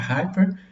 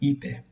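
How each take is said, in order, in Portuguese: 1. O som do h inicial é claramente ouvido. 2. O som do h inicial é omitido. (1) "a pronúncia correta é essa" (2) "o estudante brasileiro ele acaba produzindo hiper"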